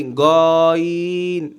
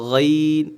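First: গইন with a plain hard g, drawn out and rounded; mispronounced ghain. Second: গইন starting with a gargled, throaty gh; correct ghain. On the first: Teacher showing how many say it wrongly, hard g. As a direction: exaggerate গইন as a long "go-een". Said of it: "অনেকে বলে কি গইন". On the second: Teacher showing the right pronunciation, gargled gh. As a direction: scrape the back of the throat on গইন. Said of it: "আর গইন উচ্চারণ". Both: Shown as a demonstration.

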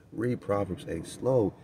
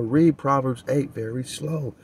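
First: Slow right down to show how to read it; said slowly. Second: Said in the usual way. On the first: Shown as a demonstration. Preacher shows listeners how to read Proverbs, slowly.

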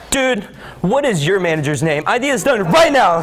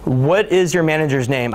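First: Exasperated outburst. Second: Said in the usual way. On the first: Acted. Executive pressuring help desk over lost time, acted angry outburst.

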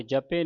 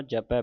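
First: ਜਪੇ ending in a closed "ay"; ਜਪੇ as "ja-pay", the mistaken reading. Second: ਜਪੈ ending in an open "ai"; ਜਪੈ as "ja-pai", the corrected reading. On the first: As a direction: end ਜਪੇ on a narrow e. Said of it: "ਨਹੀਂ ਪੜ੍ਹਨਾ". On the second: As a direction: open up the last vowel of ਜਪੈ. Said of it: "ਪੜ੍ਹਨਾ". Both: Shown as a demonstration.

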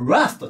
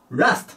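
First: "ラスト" with ラ held a little long; slightly stretched vowel. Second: "ラスト" with a short, unstretched ラ; short vowel. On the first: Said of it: "ちょっと伸ばすんです". (「ラスト」のラを少し伸ばす) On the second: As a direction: say "ラスト" with a quick first vowel. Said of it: "正しくはラスト". (「ラスト」のラを短く言う誤例) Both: Shown as a demonstration.

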